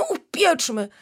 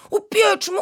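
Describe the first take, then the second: First: Enthusiastic echo. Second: Put-on very high, loud child's Upieczmy; enthusiastic call. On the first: Acted. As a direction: repeat upieczmy, still bright but settling. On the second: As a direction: shout Upieczmy with delight, very high. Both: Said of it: "zawołał z entuzjazmem".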